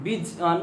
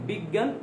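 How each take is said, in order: First: "বিজ্ঞান" said bij-an, with a j sound; letter-by-letter reading. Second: "বিজ্ঞান" said big-gan, with doubled g; actual pronunciation. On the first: Teacher shows what spelling suggests, "বিজ্ঞান" as bij-an. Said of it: "তাহলে হওয়া উচিত কি". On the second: Teacher asks how it really sounds, "বিজ্ঞান" as biggan. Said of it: "গ গ হয়ে যায়". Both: Shown as a demonstration.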